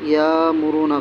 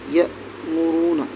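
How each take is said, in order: First: The first syllable flows on without a sharp catch. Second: The first syllable ends in a quick, abrupt catch. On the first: The speaker calls it wrong. "गलत है" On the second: The speaker calls it right. "एकदम जल्दी पढ़ना है, झटका देकर पढ़ा जाएगा"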